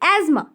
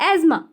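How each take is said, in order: No difference in how they are said.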